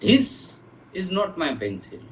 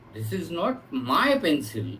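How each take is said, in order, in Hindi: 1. 'this' शब्द पर ज़ोर है। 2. 'my' शब्द पर ज़ोर है। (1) "माय pencil is something else" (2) "किसी अल- दूसरे की हो सकती है"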